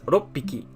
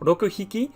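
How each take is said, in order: First: The two words merge into one with a doubled p. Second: The two words are said separately and fully. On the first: The speaker calls it right. "but as roppiki. It kind of becomes like merged together" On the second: The speaker calls it wrong. "not as roku hiki"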